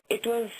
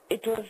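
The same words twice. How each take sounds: The two takes are said the same way.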